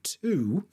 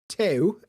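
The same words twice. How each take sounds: First: The vowel is a plain oo sound. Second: The vowel has an ew-like sound. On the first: "instead of two" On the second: "it got like this ew sound in there"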